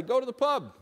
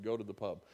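First: Bold proclamation. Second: Half-whispered as the crowd heard it; hushed aside. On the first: Shown as a demonstration. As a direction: Go to the pub called out high and loud, pub hit hard. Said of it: "But now I say". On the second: Retold or imitated. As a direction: Go to the pub murmured low and soft. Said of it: "'cause I thought he said".

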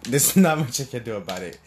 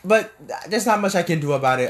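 First: Chuckling through the words; laughing. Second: Said in the usual way. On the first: Real, not acted. Son shrugging off his mom's views, laughing. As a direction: laugh it off lightly. Laughing repeat of line 156.

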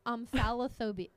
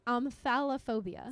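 First: Said in the usual way. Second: Slow, careful pronunciation. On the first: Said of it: "Spell it". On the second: Shown as a demonstration. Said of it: "repeat slowly".

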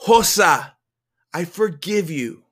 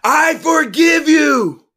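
First: Raised name, then gentler words; higher-pitched, heartfelt pardon; earnest forgiveness. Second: Slow, high, full-out shout; drawn-out, impassioned yell; louder. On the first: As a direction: forgive with feeling, holding some back. First attempt, told to say louder. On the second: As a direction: shout forgiveness with everything you have. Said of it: "Louder, the voice said". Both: A narrator's reading.

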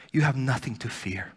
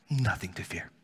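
First: Said in the usual way. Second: Softer, whispered echo; whispered repeat of the reassurance. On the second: Shown as a demonstration. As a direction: hush it like a secret comfort.

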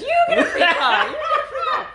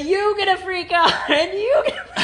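First: Much higher, louder hammed-up Oprah, laughing; Oprah impression. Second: Hint of an Oprah giveaway cheer, laughing; lightly voiced Oprah announcing prizes; Oprah impression. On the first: Host picturing car signs, shrieking mock Oprah. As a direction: squeal it like a giddy Oprah giveaway. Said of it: "signs on the side that says". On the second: Host imagining Oprah beside the car factory, mock cheer. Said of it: "she will say".

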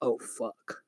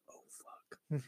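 First: Low, hushed mutter of a curse; quiet retold curse, barely voiced; real soft. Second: Barely audible whispered curse; imitating her near-silent swearing; real soft whisper. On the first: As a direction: imitate her cursing softly under her breath. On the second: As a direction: mouth it in a tiny breath of a whisper. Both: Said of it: "Like, real soft".

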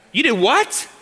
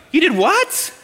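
First: A higher, incredulous "You did what?" with a rising end; stunned wife. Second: "You did what?" much higher and louder, laughing, rising on "what"; outraged disbelief. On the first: Wife hearing husband bought a house, incredulous. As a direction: play the wife first hearing the news. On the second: Wife repeating it louder, laughing in disbelief. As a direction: top the first take, laughing in disbelief. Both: Retold or imitated. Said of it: "What do you think your wife's gonna say?".

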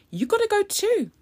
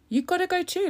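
First: Squeaky high sing-song, hitting gotta; high taunting you gotta go too; high mock scold. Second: High taunt with stress on gotta; high sing-song You gotta go too; high mock scold. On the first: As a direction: tell her off in a high mocking voice. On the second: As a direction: repeat the jibe in a high squeak. Repeats the taunt.

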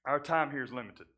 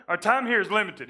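First: Said in the usual way. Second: Emphatic restatement. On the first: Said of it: "So, our time here is limited". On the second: Shown as a demonstration.

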